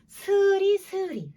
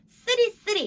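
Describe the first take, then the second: First: The first consonant is soft and plain. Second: The first consonant is tense and hard. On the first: The speaker calls it right. "스리스리 약간" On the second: The speaker calls it wrong. "쓰리쓰리 이런 느낌보다는"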